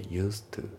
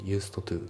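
First: "used to" linked as "use-tu"; dropped D. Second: "used to" split as "yūsuto tū"; D pronounced. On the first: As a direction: say "used to" as one word without the D. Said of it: "ユーストのDが抜けますね". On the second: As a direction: sound out both words of "used to" with an added vowel. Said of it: "じゃなくて". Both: Shown as a demonstration.

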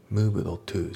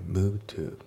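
First: "moved to" with a separate, sounded "do" before to; unreduced, word-by-word "moved to"; D fully pronounced. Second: "move to" with the d of moved silent; reduced "move to", no d sound; dropped D. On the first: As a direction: say the d of moved out in full. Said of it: "じゃなくて". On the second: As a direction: glide from the v straight into to. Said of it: "movedのDが抜けますね". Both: Shown as a demonstration.

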